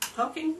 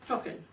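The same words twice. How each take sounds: First: The word ends with a full ing sound. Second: The word ends with a plain in sound. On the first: The speaker calls it right. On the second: The speaker calls it wrong.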